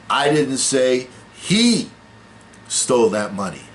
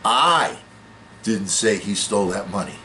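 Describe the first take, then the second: First: The word 'he' carries the main stress. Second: The word 'I' carries the main stress. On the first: Someone else took the money. "Well, it wasn't him, it was it was somebody else" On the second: Someone else said it. "That means somebody else said it"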